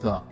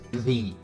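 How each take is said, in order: First: It uses the pronunciation meant for consonant sounds. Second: It uses the pronunciation meant for vowel sounds. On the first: The speaker calls it wrong. "not the" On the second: The speaker calls it right. "apple starts with a, so this is the"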